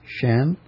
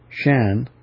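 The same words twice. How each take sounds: First: The pitch rises across the syllable. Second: The pitch falls across the syllable. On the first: "it's a rising pitch" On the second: "the descending pitch"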